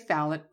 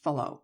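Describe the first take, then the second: First: The name ends with a sounded final consonant. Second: The name ends in a vowel, T silent. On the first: The speaker calls it wrong. "I'm going to say phallic" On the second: The speaker calls it right. "I'll guarantee you it's pronounced phalo"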